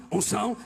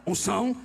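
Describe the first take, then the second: No difference in how they are said.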